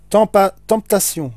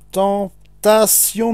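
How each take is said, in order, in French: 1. Il se prononce comme le mot anglais temptation. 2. Il se prononce comme le mot français tentation.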